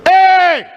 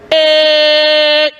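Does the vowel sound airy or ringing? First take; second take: airy; ringing. First: The vowel is pushed out with a lot of air. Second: The vowel has a bright, resonant ring. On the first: The speaker calls it wrong. "that's pushing air" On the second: The speaker calls it right. "that's using ring"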